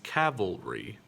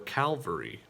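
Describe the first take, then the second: First: The V sound comes before the L sound. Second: The L sound comes before the V sound. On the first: The speaker calls it right. "Got to make sure that you get that V sound in first" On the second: The speaker calls it wrong. "Calvary is a different word"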